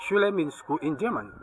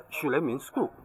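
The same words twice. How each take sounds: First: Said in the usual way. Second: "Schule" said as German "shoo-leh", quieter; German pronunciation. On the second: Shown as a demonstration. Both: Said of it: "Auf Deutsch".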